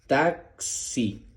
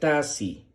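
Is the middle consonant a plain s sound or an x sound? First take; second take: x sound; plain s. First: The middle consonant is the x sound. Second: The middle consonant is a plain s sound. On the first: The speaker calls it right. "Pero en este caso es taxi. Ese es el sonido correcto de la letra X" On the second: The speaker calls it wrong. "Si aquí estuviese una S, sonaría taxi"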